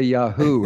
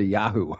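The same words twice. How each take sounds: First: The stress is on the second syllable. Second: The stress is on the first syllable.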